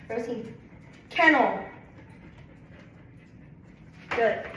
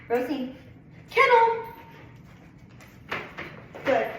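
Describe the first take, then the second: Both takes have the same delivery.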